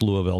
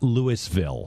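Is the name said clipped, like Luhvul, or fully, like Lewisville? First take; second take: clipped; full. First: The name is clipped, with a reduced middle syllable. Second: The name is said fully, like Lewis-ville. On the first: This is how the name is said locally. The speaker calls it right. "I can pronounce Louisville" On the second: This is how an outsider would say the name. The speaker calls it wrong. "not Louisville"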